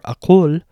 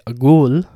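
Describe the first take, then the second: First: It is said with a q, not Iraqi style. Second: It is said with a g, Iraqi style.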